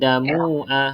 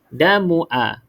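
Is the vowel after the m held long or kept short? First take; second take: long; short. First: The vowel after the m is held long. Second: The vowel after the m is kept short. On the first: The speaker calls it wrong. "Tak boleh" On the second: The speaker calls it right. "pendek je"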